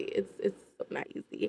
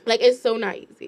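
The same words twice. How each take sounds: First: Whispered, much softer, all breath; murmured under the breath. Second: Said in the usual way. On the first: Real, not acted. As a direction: drop to a hushed whisper to stress it. Repeats the line, then drops to a whisper.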